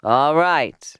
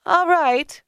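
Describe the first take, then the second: First: Loud reply at normal pitch; firm agreement, not pitched up; grudging tailor. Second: High-pitched agreement; high, emphatic character reply; grudging woman. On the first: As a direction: give in at an everyday pitch. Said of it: "replied Mendel". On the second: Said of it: "replied Leah". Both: A narrator's reading.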